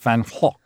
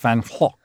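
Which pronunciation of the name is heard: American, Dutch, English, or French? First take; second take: Dutch; Dutch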